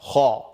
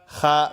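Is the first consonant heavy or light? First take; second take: heavy; light. First: The consonant is heavy, with emphatic quality. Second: The consonant is light, without emphatic quality. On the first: The speaker calls it right. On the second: The speaker calls it wrong.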